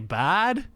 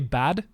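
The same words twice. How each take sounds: First: A lengthened vowel, not rhyming with lad. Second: A short vowel, rhyming with lad. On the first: "If they say bad, then they're Australian" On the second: "If they say bad, like lad, then they're British"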